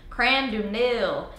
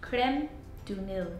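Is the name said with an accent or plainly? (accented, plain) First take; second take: accented; plain. First: The name is said with a put-on accent. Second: The name is said plainly, without an accent.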